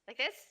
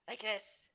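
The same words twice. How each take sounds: First: It is said in a higher put-on voice. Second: It is said in a low, gravelly voice.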